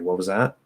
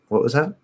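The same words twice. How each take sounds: First: The question sounds harsh and aggressive. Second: The question sounds light and curious. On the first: The listener is challenging what was said. The speaker calls it wrong. "that can sound very aggressive" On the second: The listener simply wants to hear it again. The speaker calls it right. "sort of curious"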